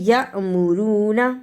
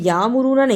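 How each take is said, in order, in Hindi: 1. पहला अक्षर एक छोटे ग्लोटल झटके पर बंद होता है। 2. पहला स्वर बिना झटके के लंबा खिंचता है। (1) "छोटा सा झटका दीजिए" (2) "इसे यामुरूना नहीं पढ़ना"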